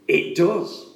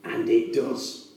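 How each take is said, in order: First: Does lifted with a rising tune; rising emphatic affirmation. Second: Softer, slow and weighty; slow quiet affirmation. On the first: Preacher affirming the prophecy to the congregation, emphatic rise. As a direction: answer yourself with growing conviction. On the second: Preacher affirming the prophecy to the congregation, slow and soft. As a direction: let it land quietly and slowly. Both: Acted.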